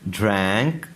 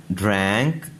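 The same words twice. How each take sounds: The two takes are said the same way.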